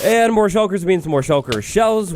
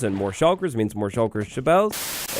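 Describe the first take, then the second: First: 1 emphatic repeat. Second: Said in the usual way. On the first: Shown as a demonstration.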